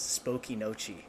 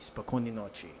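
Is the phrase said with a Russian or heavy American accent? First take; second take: heavy American; Russian. First: It is said in a heavy American accent. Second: It is said in an attempted Russian accent.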